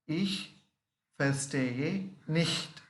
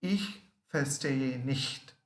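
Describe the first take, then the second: First: Ich verstehe nicht drawn out, nicht falling; slow repeat. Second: Ich verstehe nicht said slowly, word by word; slow teaching demo. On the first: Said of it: "Once again". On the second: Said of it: "Next one we learn". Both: Shown as a demonstration.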